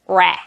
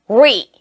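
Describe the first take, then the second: First: It is the form used when re is unstressed. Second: It is the form used when re is stressed. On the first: The prefix carries no stress. "없으면 re" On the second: The prefix carries stress or means again. "강세가 있고 없고 있을 때 뭐? re"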